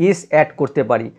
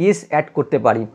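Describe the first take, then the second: No difference in how they are said.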